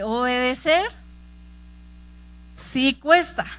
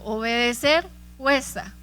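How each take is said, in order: First: It is said more loudly and forcefully. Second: It is said at normal, softer loudness.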